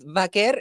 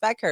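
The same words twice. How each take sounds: First: The name is said with a Spanish pronunciation. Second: The name is said with an English pronunciation. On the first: "vaquer is in Spanish" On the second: "in English it's vaquer"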